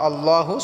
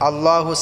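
The two takes are said the same way.

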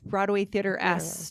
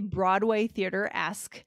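First: It is said quickly with the syllables mumbled. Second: It is said slowly with every syllable clear. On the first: The speaker calls it wrong. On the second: The speaker calls it right.

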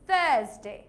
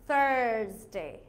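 First: It is said in a British accent. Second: It is said in an American accent.

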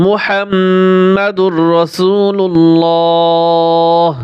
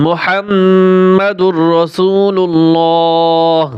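The two takes are said the same way.

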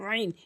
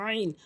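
The two takes are said the same way.

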